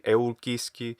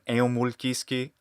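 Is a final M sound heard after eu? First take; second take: no; yes. First: No M sound follows eu. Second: A distinct M sound follows eu. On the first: The speaker calls it right. "should be eulkiski" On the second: The speaker calls it wrong. "a final M pronounced"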